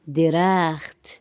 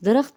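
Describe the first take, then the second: First: درخت drawn out slowly as "de-raakht"; Persian pronunciation. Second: Said in the usual way. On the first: Shown as a demonstration. Teacher repeats the Persian tree, slow careful pronunciation. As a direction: hold the open a in درخت. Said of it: "فارسی میں درخت". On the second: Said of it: "Urdu میں کہتے ہیں ہم درخت".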